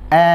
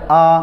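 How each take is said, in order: First: The vowel is narrow, leaning toward an e sound. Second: The vowel is open and heavy, sounding thick. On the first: "tapi nggak terbuka, dia akan tasyabbuh dengan imalah" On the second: "buka, tapi nggak mensejajarkan kedua bibir kita, dia akan tebal"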